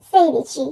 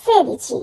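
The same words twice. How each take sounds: First: "sedici" with a diphthong, sei-dichi; wrong sei-dichi. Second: "sedici" with pure e, seh-dichi; no glide in first vowel of "sedici"; correct se-dichi. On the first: Teacher showing the mistake many make, "sedici" as sei-dichi. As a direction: glide to ee in first syllable of "sedici". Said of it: "এটা আসলে ভুল উচ্চারণ". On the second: Teacher correcting sixteen, pure-vowel "sedici". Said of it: "উচ্চারণ হবে". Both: Shown as a demonstration.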